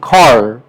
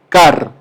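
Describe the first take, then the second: First: It is said English-style, with more force. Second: It is said with a Spanish-style pronunciation. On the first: The speaker calls it right. "Tienes que decir car... pronunciar estresando con fuerza" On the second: The speaker calls it wrong. "Si yo lo pronunciaría como en español, simplemente diría car"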